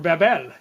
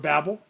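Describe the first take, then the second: First: The word is said with Spanish-style sounds. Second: The word is said with plain English sounds.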